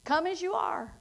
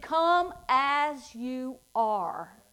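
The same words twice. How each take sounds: First: Said in the usual way. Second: Slow, drawn-out come as you are; slow invitation. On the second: Acted. Preacher slowly repeats God's invitation to the church. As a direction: stretch each word, inviting.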